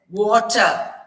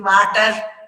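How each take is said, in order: First: The first sound is made with rounded lips. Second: The first sound is made without rounded lips. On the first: The speaker calls it right. "if our mouth is round, it will come out as water" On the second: The speaker calls it wrong. "if we don't make our mouth round, it will be water"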